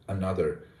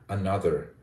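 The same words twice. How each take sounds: The two takes are said the same way.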